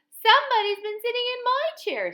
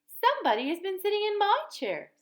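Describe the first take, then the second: First: It is said in a wee little voice. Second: It is said in a middle-sized voice.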